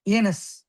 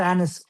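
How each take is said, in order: First: "Anus" with a long A, as in day; first vowel of "Anus" like "ay"; long-A pronunciation. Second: "anus" with a short A, as in an; first vowel of "anus" like the a in cat; short-A pronunciation. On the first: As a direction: say "Anus" as AY-nus. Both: Shown as a demonstration. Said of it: "however you pronounce it".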